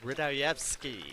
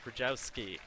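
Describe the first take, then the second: First: The name is said with an extra syllable. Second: The name is said missing one syllable. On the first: The speaker calls it right. "There's an extra syllable in there. The correct pronunciation" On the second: The speaker calls it wrong.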